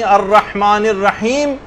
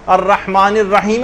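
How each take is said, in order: First: الرحمن الرحیم slow, final m without a vowel; stop before next verse. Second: الرحمن الرحیم ending in a short i, rahimi; final zer for linking. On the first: Teacher showing a reading with pause, careful recitation. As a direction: hold الرحیم, then halt on m. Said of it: "اگر آپ یوں پڑھ رہی ہیں". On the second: Teacher showing linked verses, final vowel sounded. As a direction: add a short i after the m of الرحیم, leading on. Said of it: "اس کے نیچے زیر لگا دیا". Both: Shown as a demonstration.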